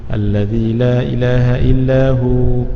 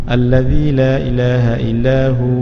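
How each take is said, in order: No difference in how they are said.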